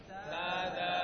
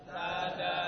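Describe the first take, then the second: No difference in how they are said.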